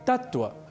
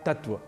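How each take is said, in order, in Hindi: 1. बीच की 't' ध्वनि दोहरी है। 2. बीच की 't' ध्वनि एकल है। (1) "जो बना है तत् और त्व इन दो शब्दों के योग से" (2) "लेकिन हम धड़ल्ले से प्रयोग करते हैं"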